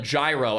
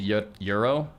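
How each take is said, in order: First: The word does not sound like euro. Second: The word sounds like euro. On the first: The speaker calls it wrong. "he called it gyro" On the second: The speaker calls it right. "the pronunciation's like euro or whatever"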